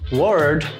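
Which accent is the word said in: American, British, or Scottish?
American. It is said in an American accent. "o americano falando"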